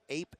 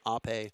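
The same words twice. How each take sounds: First: It sounds like the English word ape. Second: It sounds unlike the English word ape. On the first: The speaker calls it wrong. "ape is not how you pronounce their name" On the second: The speaker calls it right. "It's Ape"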